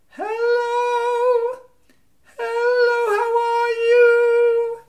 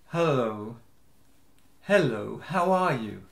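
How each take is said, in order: First: It is said in a light head voice. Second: It is said in a low chest voice.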